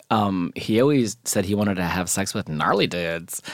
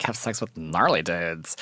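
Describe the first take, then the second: First: Said in the usual way. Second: A light, softer take on the friend's gushing voice; imitating his friend. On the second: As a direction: mimic him lightly, dreamy and low-key. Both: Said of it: "he always talked like this".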